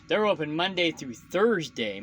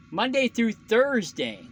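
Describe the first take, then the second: First: Said in the usual way. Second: "Monday through Thursday" slow, higher, every word weighted after a sigh; sigh, then lean hard on "Monday through Thursday"; corrected stress. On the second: Real, not acted. Trucker repeating his correction to viewers, slow and emphatic. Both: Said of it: "My bad".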